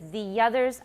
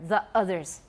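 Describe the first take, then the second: First: A light y-glide links the two words. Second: A glottal stop separates the two words. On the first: This is the textbook, more standard way. "the way I do it is the others" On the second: This is how many young people say it. "They just put a glottal stop there"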